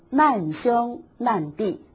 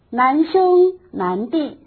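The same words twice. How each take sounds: First: The first syllable has a falling tone. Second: The first syllable has a rising tone. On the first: They are friends who shared hardship together. The speaker calls it wrong. "千万不可以念成难兄难弟" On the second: The brothers are both admirably learned and virtuous. The speaker calls it right. "难兄难弟是称呼赞美兄弟之间有学有德有修"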